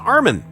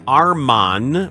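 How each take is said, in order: First: The second syllable has a short 'ih' vowel. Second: The second syllable has an open 'ah' vowel. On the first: The speaker calls it right. "when his name is Armin" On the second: The speaker calls it wrong. "people used to call him Arman"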